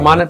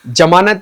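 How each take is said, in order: First: The word begins with a 'z' sound. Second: The word begins with a 'j' sound. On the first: The speaker calls it right. "ज़मानत बोलेंगे" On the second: The speaker calls it wrong. "नहीं बोलेंगे"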